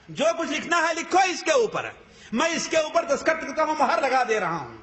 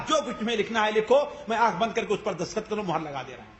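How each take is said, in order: First: High, emphatic "جو کچھ لکھنا ہے لکھو", falling at the very end; emphatic repeat. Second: Said in the usual way. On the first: Retold or imitated. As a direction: drive home "لکھو اس کے اوپر" with raised pitch. Quoted offer repeated for emphasis.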